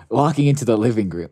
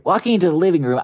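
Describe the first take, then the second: First: Said in the usual way. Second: Livelier reread. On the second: A narrator's reading. Line redone in livelier reading.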